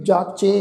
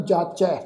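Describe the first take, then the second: First: ਜਾਚੇ with a plain e ending; the mistaken jaache reading of ਜਾਚੈ; ਜਾਚੇ ending in e instead of ai; wrong pronunciation. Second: ਜਾਚੈ with the long ai vowel at the end; correct pronunciation. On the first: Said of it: "ਇਸ ਢੰਗ ਨਾਲ ਉਚਾਰਨ ਨਹੀਂ ਕਰਨਾ". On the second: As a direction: say ਜਾਚੈ as jaachai, not jaache. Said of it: "ਇਹਨੂੰ ਉਚਾਰਨ ਕਰਾਂਗੇ ਜਾਚੈ". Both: Shown as a demonstration.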